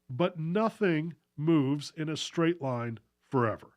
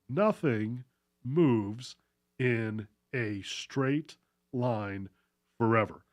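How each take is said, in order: First: It is said at a normal pace. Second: It is said more slowly.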